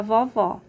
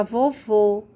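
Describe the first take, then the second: First: "vovó" with an open, wide ó; "vovó" with stress on open VÓ; open final vowel. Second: "vovô" with a closed, rounded ô; "vovô" loud, stress on closed VÔ; closed final vowel. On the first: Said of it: "se eu coloco o acento agudo". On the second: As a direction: say "vovô" firmly, tight final ô. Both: Shown as a demonstration.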